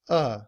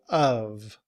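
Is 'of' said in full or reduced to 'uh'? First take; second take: reduced; full. First: The word is a short uh without v. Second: The word ends with a clear v sound. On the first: "in reduced form, we often leave off the sound of the V" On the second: "So we say of"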